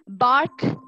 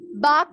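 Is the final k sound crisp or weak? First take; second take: crisp; weak. First: The final k sound is sharp and clear. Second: The final k sound is soft and unclear. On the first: The speaker calls it right. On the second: The speaker calls it wrong.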